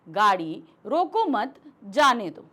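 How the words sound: There is a pause after the word mat. "जब हमने यहां पर अल्प विराम लगाया तो हम इसके बाद रुके"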